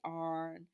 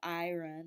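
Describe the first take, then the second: First: The word collapses into a single syllable. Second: The word is said with two full syllables. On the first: "the R collapsing, they'll say arn" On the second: "instead of iron"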